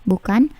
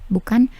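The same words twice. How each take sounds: No difference in how they are said.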